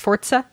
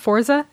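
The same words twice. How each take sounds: First: It has an Italian-style pronunciation. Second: It has a plain English-style pronunciation. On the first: The speaker calls it right. "Is that the Italian pronunciation?" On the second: The speaker calls it wrong. "It's not Forza"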